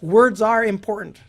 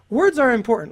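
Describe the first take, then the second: First: It is said in a plain, calm way. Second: It is said with strong, exclamatory emphasis.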